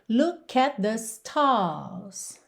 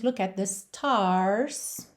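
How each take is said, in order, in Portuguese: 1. O R é omitido e a vogal é alongada. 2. O R em stars é claramente pronunciado. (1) "Já no inglês britânico, ... ele frequentemente não é enrolado e o que a gente tem é um alongamento da vogal" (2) "no inglês americano, nós teríamos"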